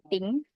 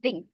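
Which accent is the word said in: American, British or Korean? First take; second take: Korean; American. First: It is said with a Korean accent. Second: It is said with an American accent. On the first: "in Korean pronunciation" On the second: "In American"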